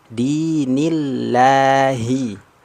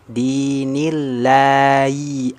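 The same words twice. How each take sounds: First: The h sound in Allah is clear and distinct. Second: The h sound in Allah is faint and unclear. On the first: The speaker calls it right. "Jadi harus jelas... Jelas" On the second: The speaker calls it wrong. "huruf ha-nya masih bunyinya samar... haknya kurang jelas"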